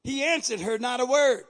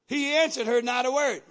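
First: "word" leaned on at the end, falling; stress on word. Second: "answered" hit hardest, then falling; stress on answered. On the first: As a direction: land the weight on "word". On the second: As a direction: punch "answered" first. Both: Shown as a demonstration. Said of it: "Now watch this".

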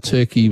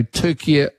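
First: Said in the usual way. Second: "Turkey" said as Türkiye, with an extra final syllable; "Turkey" pronounced in three syllables, like Türkiye; Turkish pronunciation. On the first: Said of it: "was simply the anglicised version". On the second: Shown as a demonstration. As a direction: say "Turkey" as the locals do, "Tur-kee-yeh". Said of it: "was always the correct wo-, uh, pronunciation".

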